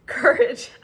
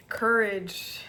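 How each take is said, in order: First: Much higher, louder amused repeat; surprised laughing squeal; delighted disbelief. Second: Said in the usual way. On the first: Real, not acted. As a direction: say it again as if it can't be true. Repeats card name, laughing.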